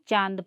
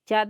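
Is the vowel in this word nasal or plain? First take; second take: nasal; plain. First: The vowel is nasal, ending in a nasal sound. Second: The vowel is plain, without nasal sound. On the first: The speaker calls it right. "ऊपर में चंद्रा बिंदु है तो उसको चांद पढ़ेंगे" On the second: The speaker calls it wrong. "चाँद नहीं पढ़ेंगे ना"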